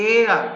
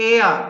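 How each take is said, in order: The two takes are said the same way.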